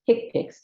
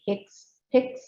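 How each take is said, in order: First: The word is said without an extra s sound. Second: The word is said with an extra s sound. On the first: The speaker calls it right. "It's HCPCS" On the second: The speaker calls it wrong. "please don't say HCPCS. There's no S here"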